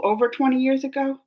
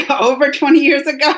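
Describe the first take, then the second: First: Said in the usual way. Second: Laughing disbelief, a bit louder. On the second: Real, not acted. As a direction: laugh through the question.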